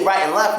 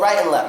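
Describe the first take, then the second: First: The word 'and' is said in full. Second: The word 'and' is reduced to a short 'n'. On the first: The speaker calls it wrong. "We wouldn't say right and left" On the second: The speaker calls it right. "We would say uh, go right and left"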